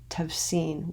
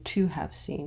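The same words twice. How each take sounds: First: The first two words are run together, contracted. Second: The first two words are said fully and separately. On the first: The speaker calls it right. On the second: The speaker calls it wrong.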